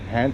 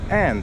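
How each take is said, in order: First: The word starts with an audible h sound. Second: The word starts without any h sound. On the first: "H A N D" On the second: "becomes and. Skip the H"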